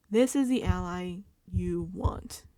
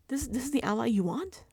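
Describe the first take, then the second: First: Slow, weighted THIS IS THE ALLY YOU WANT; emphatic restatement. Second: THIS IS THE ALLY YOU WANT lifted into a question; incredulous question. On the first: Driving home the bad choice of ally, slow emphasis. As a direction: spell it out slowly, no rise at WANT. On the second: Challenging their choice of ally, incredulous question. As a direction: ask it in disbelief, rising at WANT. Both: Acted.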